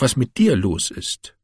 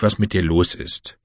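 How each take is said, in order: First: Dir stressed with a falling tune; wife hits dir to throw the blame back. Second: A mild stress on was, lower pitch. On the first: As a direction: push hard on dir and fall. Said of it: "wife throws question back". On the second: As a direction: lean on was, then let the line drop. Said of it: "husband turns question on wife". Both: Acted.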